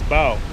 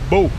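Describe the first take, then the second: First: The vowel rhymes with 'cow'. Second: The vowel rhymes with 'go'. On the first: The speaker calls it right. "It's bow. You have to pronounce the W" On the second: The speaker calls it wrong. "It's not bow"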